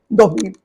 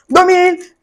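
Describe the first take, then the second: First: Said in the usual way. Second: Repeats the bid through a laugh, pitched higher; amused, laughing echo of the price; chuckling as she says it again. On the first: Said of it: "el líder dice". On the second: Retold or imitated.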